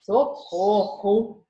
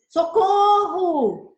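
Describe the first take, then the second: First: Very slow, mocking drawn-out "Socorro!" with no real alarm; ironic cry for help. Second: Much higher, much louder, very slow desperate shout; real cry for help. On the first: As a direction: say "Socorro!" sarcastically, not meaning it. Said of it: "a segunda intenção do socorro era mais, é, irônica". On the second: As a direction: scream "Socorro!" as if truly in danger. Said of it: "Olha o que eu uso de entonação". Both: Shown as a demonstration.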